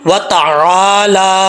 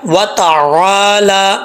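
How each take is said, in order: First: The vowel after the L is lengthened. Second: The same.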